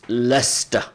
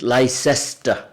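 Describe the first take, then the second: First: The name is said with the local pronunciation. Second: The name is said with a foreign, non-local pronunciation. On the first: The speaker calls it right. "I said no, it's Leicester. That's how we we call it" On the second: The speaker calls it wrong. "some people abroad they pronounce it Leicester"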